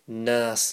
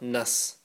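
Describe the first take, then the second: First: The vowel after the n is drawn out long. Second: The vowel after the n is cut short. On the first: The speaker calls it right. "Noon alif" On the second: The speaker calls it wrong. "not nas"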